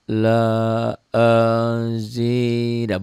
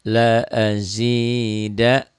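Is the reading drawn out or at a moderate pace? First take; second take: drawn out; moderate. First: It is read very slowly and drawn out. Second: It is read calmly at a moderate pace. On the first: The speaker calls it wrong. "tapi bukan pelan la azida, bukan begitu ya" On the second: The speaker calls it right. "pelan di sini jangan terburu-buru"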